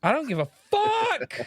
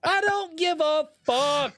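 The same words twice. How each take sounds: First: Much higher, fed-up voice; pitched way up, done with it; exasperated high outburst. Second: Much higher and slow, fed up; pitched way up and slowed; slow exasperated high outburst. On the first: Exasperated outburst about anime voices. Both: Real, not acted.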